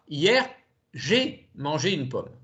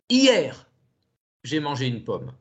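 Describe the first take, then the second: First: The word "j'ai" is stressed. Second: The word "hier" is stressed. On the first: It was me who ate it, not someone else. "Si j'accentue le mot j'ai" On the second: It happened yesterday, not today. "d'accentuer le mot hier"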